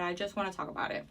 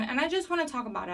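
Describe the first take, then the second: First: Softer and lower, said to himself; a softer, lower echo of the line; quieter repeat. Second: Said in the usual way. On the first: Shown as a demonstration. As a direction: drop it to a muttered aside.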